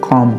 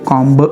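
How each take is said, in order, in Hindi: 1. शब्द m पर खत्म होता है, उसमें b नहीं है। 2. शब्द के अंत में साफ़ सुनाई देने वाली b ध्वनि है। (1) "कॉम पढ़ेंगे" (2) "उसे कॉम्ब नहीं पढ़ेंगे"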